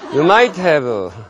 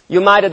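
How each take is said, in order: First: The word 'have' is pronounced fully and separately. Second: The word 'have' is reduced and linked to 'might'. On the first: "끝끝내 You might have를 고집하는" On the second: "네가 무슨 네이티브 발음을 하거나 말거나"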